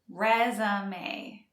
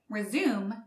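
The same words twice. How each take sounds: First: The word is said with three syllables. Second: The word is said with two syllables. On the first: It names a list of achievements for a job. "resume is pronounced with three syllables" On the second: It means to restart an activity after a pause. "As a verb"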